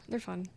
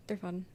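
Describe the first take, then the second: No difference in how they are said.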